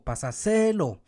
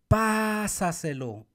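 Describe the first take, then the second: First: The stress is on the third syllable. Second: The stress is on the first syllable.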